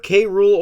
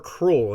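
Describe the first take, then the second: First: The letter K is said apart from 'Rool'. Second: The name is said as the single word 'cruel'. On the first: This is the way the speaker prefers. "I prefer K. Rool" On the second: This is the way the name is supposed to be said. "his name is supposed to be Captain Cruel"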